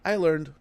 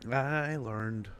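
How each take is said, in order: First: I learned. said louder and higher, stressed on I; emphatic lesson learned. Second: Said in the usual way. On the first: Real, not acted. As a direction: declare it like a hard-won lesson. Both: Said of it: "Never trust him. Right?".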